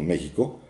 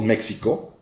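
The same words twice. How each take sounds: First: The x is sounded like a Spanish 'j'. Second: The x is sounded like 'ks'. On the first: This is how Mexicans say it. "lo pronunciamos con sonido de J" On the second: This is how English speakers say it. "no decimos México, porque no somos gringos"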